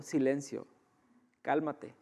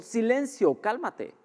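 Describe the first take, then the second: First: Orden suave y serena; tranquilo. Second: Orden aguda y agitada; alterado, alarmado. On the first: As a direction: mandar callar sin necesidad de gritar, en voz baja. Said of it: "tranquilamente dijo". (dicho tranquilamente, con calma) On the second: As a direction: como recién despertado del susto, mandando callar. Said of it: "no se levantó alterado". (voz alterada y alarmada, actuada) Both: Acted.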